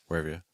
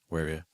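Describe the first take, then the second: The two takes are said the same way.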